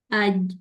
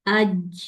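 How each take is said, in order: First: "اج" stopped on the j, no release; unreleased j in "اج"; jeem held shut. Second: "اج" with the end let go into "ch"; hissy "ch" at the end of "اج"; jeem wrongly released. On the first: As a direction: shut the sound off at the end of "اج". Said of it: "آواز کو بند کر دیں". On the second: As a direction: release "اج" with an airy puff. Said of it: "اگر میں اس کو چھوڑوں گی". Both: Shown as a demonstration.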